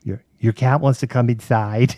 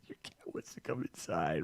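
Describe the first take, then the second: First: Said in the usual way. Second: Much softer, breathy whisper in disbelief. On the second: Retold or imitated. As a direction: hush it like a stunned aside. Repeating kid's line in disbelief.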